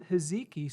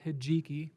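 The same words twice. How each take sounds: First: Hijiki said with a z sound, "hi-ZEE-kee"; z pronunciation. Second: Hijiki said with a j sound, "hi-JEE-kee"; j pronunciation. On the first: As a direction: say hijiki as "hiziki", z in the middle. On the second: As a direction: say hijiki with the j as in jeep. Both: Shown as a demonstration. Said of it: "I've heard it pronounced both ways".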